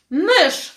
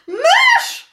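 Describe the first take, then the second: First: Sudden loud shriek of alarm; girl screaming at a mouse. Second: Piercing, much higher and louder shriek; teacher screaming, leaping onto her stool; panicked scream. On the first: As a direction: yell it out the moment she spots it. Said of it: "wrzasnęła Weronika". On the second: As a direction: scream in pure terror at the mouse. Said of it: "krzyknęła". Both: A narrator's reading.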